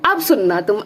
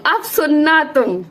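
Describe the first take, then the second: First: Said in the usual way. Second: अब सुनना तुम drawn out slowly, each word leaned on, higher; slow it right down, stressing अब; slow emphatic. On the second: Shown as a demonstration. Vlogger insists viewers listen closely, slow emphatic.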